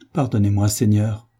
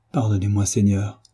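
First: Cri modéré de supplication; s'écriant. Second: Léger gémissement, voix à peine retenue; gémissant. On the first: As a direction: lance l'appel vers Dieu, un peu plus fort. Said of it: "s'écria-t-il". (le pénitent crie grâce au prêtre, cri léger) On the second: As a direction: implore Dieu en gémissant doucement. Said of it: "gémit Savelli". (Savelli prosterné implore Dieu, léger gémissement) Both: A narrator's reading.

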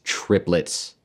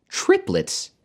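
First: Said in the usual way. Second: Higher, incredulous repeat of the word; word thrown up high in exclamation; exclaiming. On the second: A narrator's reading. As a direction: exclaim it, pitched up. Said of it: "She was exclaiming over".

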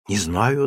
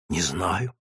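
First: Said in the usual way. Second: Low, soft, frightened answer; timid answer. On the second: Acted. Scared mother answers the sergeant's question, low and soft. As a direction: shrink back as you answer.

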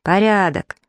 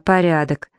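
First: Mildly raised, drawn report; narrator's understated call; shouted all-clear. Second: Said in the usual way. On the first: A narrator's reading. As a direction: call out that the job is done. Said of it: "Павка прокричал".

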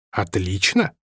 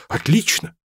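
First: A grudging, sarcastic Отлично!; dry. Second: Bright rising cry of Отлично!, pitched higher; Отлично! thrown up high with delight; exclaiming. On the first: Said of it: "наконец сказал Рами". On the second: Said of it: "воскликнул Робин". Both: A narrator's reading.

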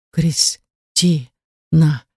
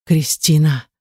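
First: Very slow name broken into syllables; soundless, faltering. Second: Understated pained moan of a name. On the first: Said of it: "беззвучно произнёс он". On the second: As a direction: groan the name lightly. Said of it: "застонал Булат". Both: A narrator's reading.

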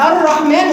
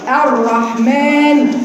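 First: الرحمن with a buzzing multiple roll on the r; over-trilled r. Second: Very slow الرحمن with one tap on the r; single-tap r. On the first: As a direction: show the mistake by rolling the r of الرحمن. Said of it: "طرف لساني هيطلع راءات كتير". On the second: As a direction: say الرحمن slowly, tongue tip spread, one tap. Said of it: "تكرارة واحدة فقط". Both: Shown as a demonstration.

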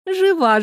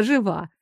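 First: «Жива» lifted high and bright-toned; first «Жива» sung out high; «Жива» said much higher; high reassurance. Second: Put-on calm the child with a soft «жива»; «жива» softly murmured; soothing. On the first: Acted. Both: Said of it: "успокоительно зажурчала вода".

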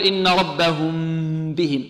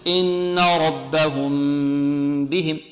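First: "ربهم" hummed with lips squeezed hard on the M before "بهم"; pressed-lip meem. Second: Long slow hum on the M of "ربهم", lips relaxed; unpressed meem. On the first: Teacher showing the mistake, pressed M in "ربهم". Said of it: "نكز الشفتين ونضغط على الشفتين، لا". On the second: Teacher modelling the correct way, relaxed hummed M in "ربهم". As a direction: hold "ربهم" into "بهم" without squeezing the lips. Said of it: "بإطلاق الشفتين بدون كز". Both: Shown as a demonstration.

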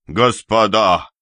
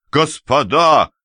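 First: Loud call to break up a fight; first call, loud but held. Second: Second call pitched higher, slower and louder; the escalated second cry; louder, pleading shout. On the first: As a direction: raise the voice to stop them. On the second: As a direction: repeat it higher and drawn out, more desperate. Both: Acted. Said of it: "кричал Ряжский".

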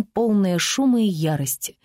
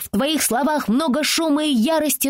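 First: Said in the usual way. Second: Put-on higher girl's voice, lofty and indignant; a little girl showing off big words; child quoting grandly. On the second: Francie answering the teasing girl with a lofty child's voice. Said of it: "Фрэнси ответила на оскорбление".

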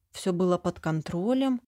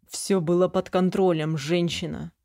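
First: Incredulous repeat. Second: Wincing dismissal. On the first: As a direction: repeat под контролем as if you can't believe it. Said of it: "Что он сказал?". (недоверчиво переспросить «под контролем») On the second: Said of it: "поморщился". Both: A narrator's reading.

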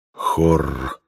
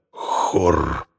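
First: Deep growling bear voice; lower bear growl. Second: Low growl of a bear; growled name. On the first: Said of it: "повторил медведь". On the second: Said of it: "прорычал". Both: Acted.

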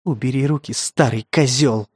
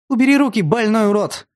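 First: Hissed. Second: Put-on desperate girl's scream; screaming at him. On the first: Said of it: "зашипела Мика". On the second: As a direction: yell in fury and fear. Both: A narrator's reading.

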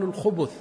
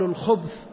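First: الخبث in two syllables, u on both خ and ب; damma on the middle letter. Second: الخبث in one closed syllable, ب running straight into ث; sukun on the middle letter. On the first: Teacher showing students the other permitted reading, الخبث with damma on ب. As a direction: say الخبث with a short u after the ب, khubuth. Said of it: "التحريك بالضم فيقال". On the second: Teacher showing students the permitted variant, الخبث with silent-vowel ب. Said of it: "إنه يجوز الإسكان فيقال". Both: Shown as a demonstration.

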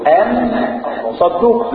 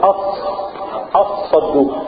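First: "أن صدوق" with a clear, distinct نون before the ص; sharp separate n in "أن صدوق"; izhar demo. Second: "أص صدوق" with the نون merged into a doubled ص; "أص صدوق", n fully assimilated into ص; idgham demo. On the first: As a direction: say the n in "أن" fully and cleanly, then "صدوق". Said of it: "لو كان الإظهار كان تبقى إيه". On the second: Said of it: "لو كانت إدغام". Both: Shown as a demonstration.

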